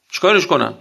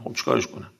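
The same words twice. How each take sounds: First: Said in the usual way. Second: A breathy, voiceless aside, much softer; whispered aside. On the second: Shown as a demonstration. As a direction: whisper "خب چیکارش کنم؟" like a shrug to yourself. Shrugging aside a dietary demand.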